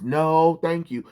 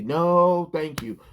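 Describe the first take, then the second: First: Mocking catchphrase. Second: Mock Wonder Woman line. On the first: Ridiculing the writer's fake catchphrase, sarcastic. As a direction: repeat it high and sarcastic to ridicule it. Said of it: "that is not her catchphrase". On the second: Mocking how Wonder Woman is written, lightly prim. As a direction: say it like a prim superhero brushing someone off. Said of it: "that's not how Wonder Woman would talk".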